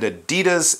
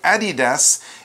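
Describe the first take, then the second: First: It is said the North American way. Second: It is said the European way. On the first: "Adidas in North America" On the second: "they say Adidas in Europe"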